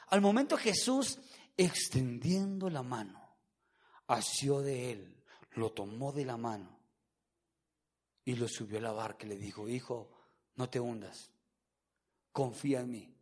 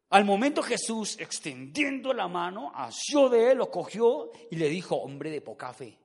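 First: Tender version. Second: Stern corrected version. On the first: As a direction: soothe like a gentle father lifting his child. (lectura tierna, grave y muy suave) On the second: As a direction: read it forcefully, then reprove the doubter. (lectura enérgica que termina en reproche) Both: Acted. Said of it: "Ese texto dice todo lo contrario".

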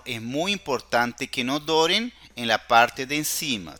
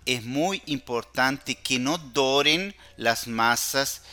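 First: Said in the usual way. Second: Slow, with muy stressed; slow down and lean on muy to warn; careful warning. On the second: Shown as a demonstration. Teacher warning students not to brown the cookies, slow and emphatic.

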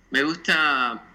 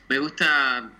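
The two takes are said the same way.

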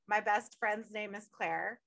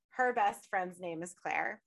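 First: MY set out first, measured pace; "My" stressed in a slow parallel line. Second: HER set against one's own, slower; "Her" stressed in a slow echoing line. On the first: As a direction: lean on "My", slow and deliberate. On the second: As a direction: lean on "Her", slow and deliberate. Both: Real, not acted. Matching her life to the character's.

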